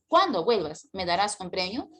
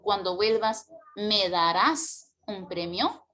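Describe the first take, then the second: First: The main stress falls on the word cuando. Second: The main stress falls on the word darás. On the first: "si yo coloco el acento en cuando, mira cómo suena" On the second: "el acento o mayor fuerza de voz se lo llevará el verbo principal"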